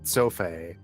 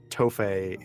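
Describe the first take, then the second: First: The name begins with a TS sound. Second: The name begins with a plain T sound. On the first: The speaker calls it right. "like a T S because it's Romanian" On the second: The speaker calls it wrong. "it's not Toffe"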